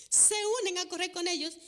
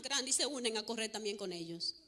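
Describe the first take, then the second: First: Higher, louder, faster restatement; lively emphatic echo; excited repeat. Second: Said in the usual way. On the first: Real, not acted. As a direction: repeat it with a spark of delight.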